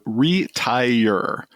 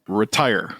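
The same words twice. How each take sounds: First: The word is said with three syllables. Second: The word is said with two syllables. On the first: This is the speaker's local dialect pronunciation. The speaker calls it right. "when I pronounce it, it's re- retire" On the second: This is the usual pronunciation elsewhere. The speaker calls it wrong. "not retire"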